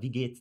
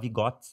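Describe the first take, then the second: First: It is said in standard German. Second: It is said in a local German dialect. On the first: "fala wie geht's" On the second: "na minha cidade falava wie Gott"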